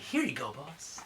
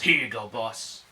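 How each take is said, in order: First: It is said in a lighter voice. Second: It is said in a manly voice.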